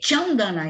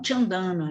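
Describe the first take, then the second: First: The stress is on the first syllable. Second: The stress is not on the first syllable. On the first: The speaker calls it right. "a gente vai ler Chandana" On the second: The speaker calls it wrong. "e não Chandana"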